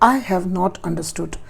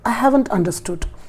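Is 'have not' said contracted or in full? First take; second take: full; contracted. First: 'Have not' is said as two full words. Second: 'Have not' is joined into one contracted word. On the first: The speaker calls it wrong. "बोला बिल्कुल सही है, कोई गलत नहीं है, but इसमें उतना फ्लो नहीं आ रहा" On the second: The speaker calls it right. "एक फ्लो बना, एक नेचुरल वे आया"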